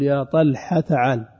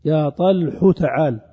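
First: "طلحة" said as "ṭalḥa", t dropped, ح open; fatha kept on ح. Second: "طلح" said as "ṭalḥu", ending in "u"; damma moved onto ح. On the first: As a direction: clip "طلحة" to "ṭalḥa" before "تعال". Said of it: "يعني الحاء تبقى مفتوحة". (نطق "طلحة" بحذف التاء وفتح الحاء) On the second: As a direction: slowly sound "طلح" as "ṭalḥu" before "تعال". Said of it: "وتنقل هذه الضمة إلى ما قبل". (نطق "طلح" بضم الحاء) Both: Shown as a demonstration.

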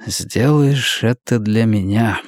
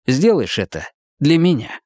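First: Slow, low remembered echo; distant flashback echo. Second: Said in the usual way. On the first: A narrator's reading. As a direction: let it sound like a memory. (далёкое эхо воспоминания) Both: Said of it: "Просьба эхом звучала в голове".

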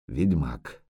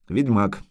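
First: Low, soft dread-filled murmur; hushed dread. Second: Said in the usual way. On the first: Acted. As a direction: breathe the word in fear. Yurga's dread thought.

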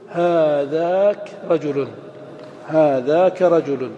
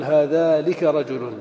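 First: هذاك said slowly, kāf without lām; correct form. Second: هذالك said slowly, with the forbidden lām; wrong form. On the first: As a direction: model هذاك رجل carefully. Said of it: "فتقول". (نطق هذاك رجل الصحيح ببطء) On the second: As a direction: mark هذالك as the mistake. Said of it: "ولا تقل". (نطق هذالك الخاطئ بتمهل) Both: Shown as a demonstration.

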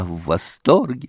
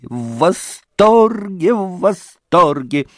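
First: Said in the usual way. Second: Higher, louder and slow, savouring the delight; rapturous мамаша drawing out восторге. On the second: Acted. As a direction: gush over the word восторге. Mother repeats her delight.

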